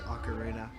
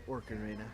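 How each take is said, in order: First: It is said without an R after the O. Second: It is said with an R after the O. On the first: The speaker calls it right. "I force myself to say ocarina" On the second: The speaker calls it wrong. "I've always called it Orcarina"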